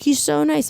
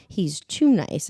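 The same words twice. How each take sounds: First: High, pleading "SO nice"; mock defensive park friend; imitated insistence. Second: "too" stretched slowly, pitched back down; slow, knowing "TOO nice"; stress on TOO. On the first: Friend insisting in retold argument. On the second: Retold or imitated. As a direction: draw out TOO with suspicion. Teller's suspicious rebuttal in argument.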